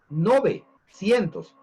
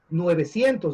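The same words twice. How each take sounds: First: The first syllable has the plain vowel 'o'. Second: The first syllable has the diphthong 'ue'. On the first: The speaker calls it right. "la corrección la vemos acá" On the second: The speaker calls it wrong. "No es nueve, novecientos dicen"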